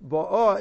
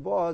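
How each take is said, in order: First: "bo'ah" stressed on "bo"; stress on first syllable. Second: "bo'ah" stressed on "ah"; stress on last syllable. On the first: Teacher showing past tense, "bo'ah" stressed up front. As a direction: punch the start of "bo'ah". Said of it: "is past tense". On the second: Teacher showing present tense, "bo'ah" stressed at the end. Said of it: "present tense". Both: Shown as a demonstration.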